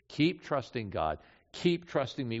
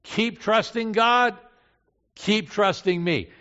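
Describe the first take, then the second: First: Gentle reassurance. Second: Loud, high, slow exhortation; emphatic urging. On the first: Jesus consoling disciples who will fail, gently reassuring. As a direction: reassure them in a lowered voice. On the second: Jesus urging his disciples to keep trusting, loud and emphatic. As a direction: urge it out loudly, pitched up. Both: Acted.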